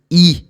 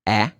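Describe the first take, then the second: First: The vowel is a long sound. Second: The vowel is a short sound. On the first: "the long E is E" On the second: "The short E is E"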